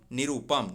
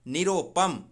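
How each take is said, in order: First: निरूपम with U after र; correct form निरूपम. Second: निरोपम with a long O after र; wrong form निरोपम. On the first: Teacher corrects निरोपम for students, correct form. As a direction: say निरूपम, oo in the middle. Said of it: "निरूपम होता है". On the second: Teacher shows the wrong word to students, mistaken form. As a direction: say निरोपम, O in the middle. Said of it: "देखिए निरोपम नहीं". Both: Shown as a demonstration.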